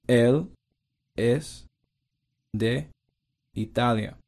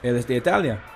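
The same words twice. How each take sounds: First: It is said slowly and carefully. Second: It is said at normal conversational speed.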